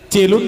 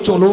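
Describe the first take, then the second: First: The first vowel sounds like 'e'. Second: The first vowel sounds like 'o'. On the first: The speaker calls it wrong. "চেলুন নয়" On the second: The speaker calls it right.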